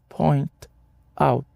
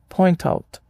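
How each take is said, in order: First: The two words are said separately. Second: The two words are linked together. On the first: The speaker calls it wrong. "você não diz point out" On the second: The speaker calls it right. "O T final de point conecta-se ao O de out, criando uma ponte fonética"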